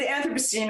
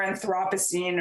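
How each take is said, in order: First: Anthropocene stressed on AN, with a reduced second vowel; first-syllable stress. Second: Anthropocene stressed on THROP, with an open vowel; second-syllable stress. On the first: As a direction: say AN-thruh-puh-seen for Anthropocene. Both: Shown as a demonstration. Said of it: "people pronounce it differently".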